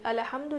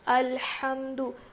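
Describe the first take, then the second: First: A short vowel is heard after the L. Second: The L joins the H with no vowel. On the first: The speaker calls it wrong. "अलहम्दु नहीं है" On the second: The speaker calls it right. "लाम के ऊपर ज़बर नहीं है बल्कि जज़म है"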